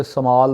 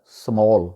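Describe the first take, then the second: First: स्मॉल with a long "aa", su-maal; wrong local pronunciation. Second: स्मॉल with a rounded "aw", smawl; native English pronunciation. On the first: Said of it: "इसको वहाँ पे स्मॉल बोला जाता है". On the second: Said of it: "actual गोरों वाला तलफ़ुज़ है". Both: Shown as a demonstration.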